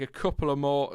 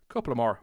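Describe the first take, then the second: First: Said in the usual way. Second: Badly done Irish lilt; unintended, terrible Irish accent; accidental Irish accent. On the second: Real, not acted. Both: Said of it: "I did the accent".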